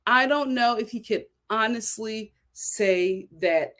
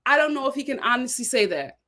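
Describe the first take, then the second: First: Slowed right down, pausing between words; slow, deliberate repeat. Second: Said in the usual way. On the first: Real, not acted. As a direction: spell out the doubt word by word. Repeats doubt slowly for emphasis.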